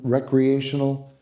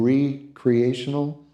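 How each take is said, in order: First: The word starts with a short 'rek' sound. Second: The word starts with a long 'ree' sound.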